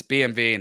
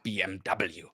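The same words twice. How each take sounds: First: B M W as "bay-em-vay"; German letter names. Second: B M W as "bee-em-double-you", slow and lower; English letter names. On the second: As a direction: drag out B M W in English, dismissively. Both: Shown as a demonstration. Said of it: "not B M W".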